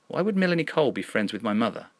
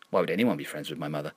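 First: Higher, wondering disbelief; puzzled question. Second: Quick, lowered intrusive aside; another inner voice. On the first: Narrator puzzling over a stranger knowing mother, puzzled. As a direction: ask it in raised puzzlement. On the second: Another voice intruding on the narrator's thoughts, dismissive aside. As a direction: slip it in fast, like someone else's thought. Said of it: "That belongs to another voice". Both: A narrator's reading.

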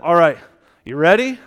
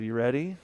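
First: Louder, rising "you ready?"; upbeat check-in. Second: Soft, low, rising "you ready?"; gentle check-in. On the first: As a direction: give the groom a brisk, rallying nudge. Preacher briskly checking on nervous groom. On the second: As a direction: ask it carefully, as before a funeral. Quiet question backstage before a funeral. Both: Retold or imitated.

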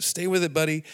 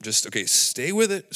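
First: Pitched up to cheer himself on; higher self-encouragement. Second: Said in the usual way. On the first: Retold or imitated. Urging himself through shame, higher. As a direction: lift the voice like a coach to a buddy. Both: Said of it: "It's like, whoop".

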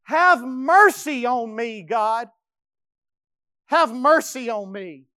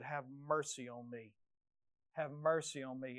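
First: Slow, loud anguished cry for mercy; pleading. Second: Very soft, low humble plea; whisper-close begging for mercy; hushed plea. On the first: David begging God for mercy, loud and slow. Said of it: "this is what he says". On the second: Preacher models David's plea, soft and low. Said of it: "go back to God like David". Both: Acted.

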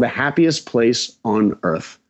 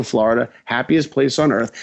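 First: The Happiest Place on Earth, slowly, each word weighted; slow slogan read. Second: Said in the usual way. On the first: Shown as a demonstration. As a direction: read the slogan like a billboard tagline. Quoting Disney's slogan.

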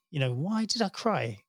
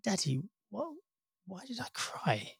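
First: Said in the usual way. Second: Put-on higher, much softer little boy's puzzled question; child asking softly. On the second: Father retelling his son asking why he cried, high and soft. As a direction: imitate a small son asking gently.

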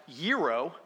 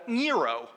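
First: Gyro with a Y, "YEE-ro"; correct pronunciation. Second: Gyro with an N, "NEE-ro"; dad's odd pronunciation. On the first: Shown as a demonstration. Speaker correcting the American version of the dish, proper pronunciation. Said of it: "It is actually pronounced". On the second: Retold or imitated. Son quoting dad ordering at the restaurant, odd pronunciation. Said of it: "he called it a".

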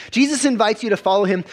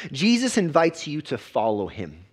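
First: Louder and faster, punching Jesus; preacher repeating the line with rising force; emphatic repeat. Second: Said in the usual way. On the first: Real, not acted. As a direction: drive the point home the second time. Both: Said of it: "repeated with more force".

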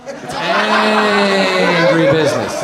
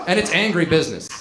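First: "angry" stretched out long and loud; drawn-out emphasis on angry. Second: Said in the usual way. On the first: Real, not acted. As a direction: lean hard on "angry", holding the vowel. Emphatic repeat of angry business.

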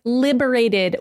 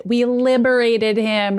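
First: Said in the usual way. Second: "liberated" slowed and leaned on; smug Pietro correcting Rogue, slow on "liberated"; stress on liberated. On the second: Retold or imitated. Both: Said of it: "Pietro's like".

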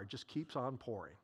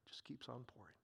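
First: Quiet awe. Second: Whispered in hushed wonder; a soft awed whisper about the endless jar. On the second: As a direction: breathe it out as a whisper. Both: Shown as a demonstration.

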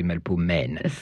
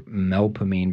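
First: "melpomène" as mel-po-MEN; French melpomène. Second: "melpomene" as MEL-puh-meen; local melpomene. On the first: Showing the source of the name, French pronunciation. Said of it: "in French you say melpomène". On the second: Explaining another street name, local pronunciation. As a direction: say "melpomene" in three syllables, ending meen. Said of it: "the same for melpomene". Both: Shown as a demonstration.

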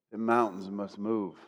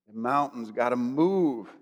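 First: Low, soft declaration; quiet conviction. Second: Low, slow declaration with a long MOVE; drawn-out conviction. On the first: Preacher declaring to the mountains, low quiet conviction. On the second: Preacher restating his declaration to the mountains, slow and drawn-out. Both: Shown as a demonstration. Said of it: "strength with all conviction".

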